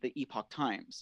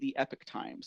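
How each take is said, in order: First: The first word sounds like 'ee-pock'. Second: The first word sounds like 'epic'. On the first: This is the older way the outlet said it. "they used to say the Epoch Times. You know, like that's how they pronounced it" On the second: This is the current way the outlet says it. "Now they say the Epic Times"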